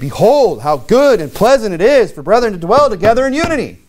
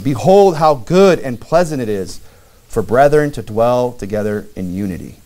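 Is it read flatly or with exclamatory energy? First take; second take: exclamatory; flatly. First: It is read with exclamatory energy. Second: It is read flatly, without exclamation.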